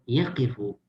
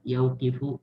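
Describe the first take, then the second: First: No w sound follows the first syllable. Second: A w sound follows the first syllable. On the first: The speaker calls it right. "Udahlah langsung yakifu" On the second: The speaker calls it wrong. "ribet yaukifu, mulut harus mencos-mencos"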